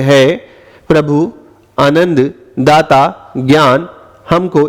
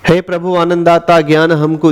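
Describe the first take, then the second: First: The line is broken up with pauses. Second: The line flows smoothly without breaks. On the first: It loses the verse's flow. The speaker calls it wrong. "आप इसको ऐसे नहीं बोल सकते" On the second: It sounds like proper verse. The speaker calls it right. "एक प्रवाह लगता है"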